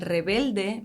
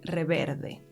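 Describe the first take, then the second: First: An l sound comes before the d. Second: An r sound comes before the d. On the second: "might sound like reverde"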